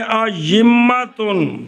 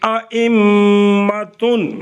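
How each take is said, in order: First: The second glottal stop becomes a y sound. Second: Both glottal stops are pronounced fully. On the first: "या के साथ बदल करके पढ़े" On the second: "दोनों हमजे हमजे करके पढ़े"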